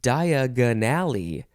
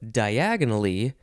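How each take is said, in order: First: Stressed to sound like the words Diagon Alley. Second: Stressed as the ordinary single word diagonally. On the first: "I changed how to emphasize the word" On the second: "instead of diagonally"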